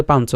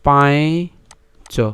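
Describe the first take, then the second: First: "পাঞ্চ" said the everyday Bengali way; Bengali pronunciation. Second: Very slow, broken-up "পাঁচ" with a rising end; careful Sanskrit "পাঁচ"; Sanskrit pronunciation. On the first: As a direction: say "পাঞ্চ" as a Bengali speaker would. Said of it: "বাংলায় উচ্চারণ করি পাঞ্চ হয়". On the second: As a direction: draw out "পাঁচ" sound by sound. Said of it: "সংস্কৃত উচ্চারণ করি তাহলে আমরা ভেঙে বললে". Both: Shown as a demonstration.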